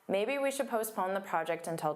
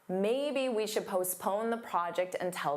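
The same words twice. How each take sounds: First: It is mumbled, quiet and fast. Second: It is clear, louder and slower. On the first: The speaker calls it wrong. "I'm going to mumble. I want you to notice how my volume is quieter, my speech is faster" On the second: The speaker calls it right. "I'll open my mouth wider than I normally would"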